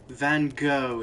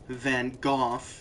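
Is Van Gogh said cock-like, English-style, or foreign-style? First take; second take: English-style; foreign-style. First: It is said in a posh English style. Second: It is said with an attempted foreign sound. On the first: The speaker is a posh English person. "if you're English and a hoity-toity" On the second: The speaker pretends to know other languages. "if you think you know other languages, but you don't"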